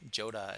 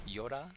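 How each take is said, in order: First: The name begins with a J sound. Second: The name begins with a Y sound.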